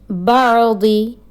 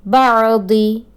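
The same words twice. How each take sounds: The two takes are said the same way.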